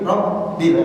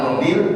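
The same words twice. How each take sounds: First: The b sound is held and doubled. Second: The b sound is short and single. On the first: The speaker calls it right. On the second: The speaker calls it wrong.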